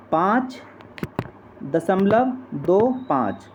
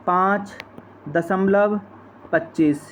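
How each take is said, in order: First: "दो पाँच" read digit by digit, slow; correct reading. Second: After the point read as one number, "पच्चीस"; wrong reading. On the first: Teacher showing students the right way to read decimals, slow and clear. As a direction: say "पाँच दशमलव दो पाँच" slowly, one digit at a time. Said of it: "तो हम इसको ऐसे ही पढ़ते हैं दोस्तों". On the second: Teacher showing students the common wrong reading, a plain demo. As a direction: say "पाँच दशमलव पच्चीस" as the common mistake. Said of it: "ये बिल्कुल गल-, गलत तरीका है दोस्तों". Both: Shown as a demonstration.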